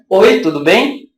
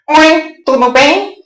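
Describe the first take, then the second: First: It is said in the speaker's own natural voice. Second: It is said in an invented character voice.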